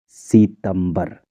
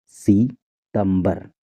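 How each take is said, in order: Both takes have the same delivery.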